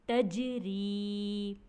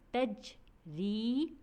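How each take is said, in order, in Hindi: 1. शब्द एक इकाई की तरह बोला जाता है। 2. शब्द दो हिस्सों में टूटा हुआ बोला जाता है।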